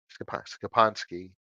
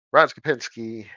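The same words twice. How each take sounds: First: "Skopa-, Skopansky" said slower, restarting to fix the stress; slow down and correct to "Skopansky"; corrected name. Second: "Skopinski" said quickly in the usual rhythm; first try at the name. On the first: Correcting a listener's name, slower careful retry. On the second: Reading a listener's name aloud, a first quick try. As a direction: rattle off "Ron Skopinski" before correcting it. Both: Shown as a demonstration. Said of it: "gotta get the emphasis on the right syllable".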